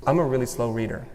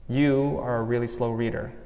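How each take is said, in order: First: Said in the usual way. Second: Quietly voicing the critical mom; a soft, lightly voiced scolding parent; inner critic voice. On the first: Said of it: "Here's example number one". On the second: Shown as a demonstration. Inner critic echoing her mom, said quietly. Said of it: "It's my mom".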